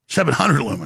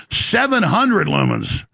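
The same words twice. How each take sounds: First: Said in the usual way. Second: "seven hundred" stretched out and pitched up; emphatic correction. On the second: Real, not acted. Host fixing his misread lumens figure, "seven hundred" stressed emphatically. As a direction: punch "seven hundred" slowly, higher.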